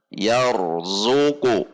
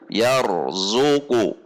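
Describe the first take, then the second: Both takes have the same delivery.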